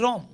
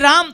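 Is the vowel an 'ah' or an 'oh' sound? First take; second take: oh; ah. First: The vowel is a rounded 'oh' sound. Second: The vowel is an open 'ah' sound. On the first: "તો કે રોમ" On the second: "આપણે કઈ રામ"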